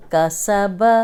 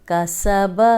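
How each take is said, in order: Both takes have the same delivery.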